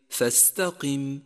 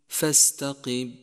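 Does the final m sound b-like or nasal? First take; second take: nasal; b-like. First: The final m sounds fully nasal. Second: The final m sounds weak, almost like b. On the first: The speaker calls it right. "مثال ذلك فاستقم" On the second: The speaker calls it wrong. "ومن الخطأ أيضاً نقصان الغنة فيصير حرف الميم كحرف الباء"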